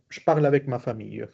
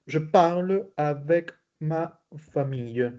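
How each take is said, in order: First: Fast, joined-up French sentence; quick fluent repeat. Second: Slow, word-by-word French for learners; slow model reading. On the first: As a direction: run the words together at native speed. Same sentence repeated at fluent speed. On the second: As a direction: space out each word as a language teacher. Teacher models sentence slowly. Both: Shown as a demonstration.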